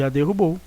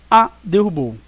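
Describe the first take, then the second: First: Said in the usual way. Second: A set apart before "derrubou"; stress on A. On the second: Shown as a demonstration. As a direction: punch the A, then "derrubou". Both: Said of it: "do artigo A".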